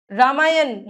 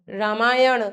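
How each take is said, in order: First: रामायण ending in plain n; tongue on teeth at the end of रामायण; dental-n error. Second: रामायण ending in curled-tongue ṇ; "raamaayaṇ", retroflex end. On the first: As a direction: say रामायण wrongly as "raamaayan". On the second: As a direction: flap the last sound of रामायण. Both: Shown as a demonstration. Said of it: "न और ण की अशुद्धियां".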